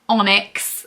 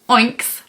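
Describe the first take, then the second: First: The first syllable sounds like 'on'. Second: The first syllable sounds like 'oink'. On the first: The speaker calls it right. "I know it's supposed to be onyx" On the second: The speaker calls it wrong. "I want to say oinks, like oinks, but that sounds like a pig"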